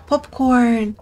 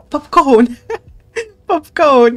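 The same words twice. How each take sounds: First: Said in the usual way. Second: Loud delighted yell with a laugh; excited shout. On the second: Real, not acted. Player thrilled at popcorn, loud laughing shout. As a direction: cheer at the popcorn.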